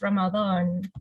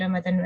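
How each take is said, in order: First: It is pronounced the way religious teachers advise. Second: It is pronounced the standard Indonesian way. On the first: It follows religious teachers' advice. "they uh, highly advise us to pronounce it as Ramadan" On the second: It follows standard Indonesian usage. "in standard Indonesian, it should be Ramadan"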